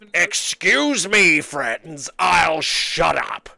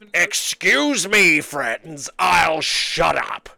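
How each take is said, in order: First: It is said in a put-on old man's voice. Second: It is said in a put-on old man's voice.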